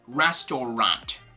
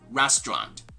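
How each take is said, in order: First: All three syllables are pronounced. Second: The middle syllable is dropped, giving two syllables. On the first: The speaker calls it wrong. "this is not going to be restaurant" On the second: The speaker calls it right. "but rather restaurant"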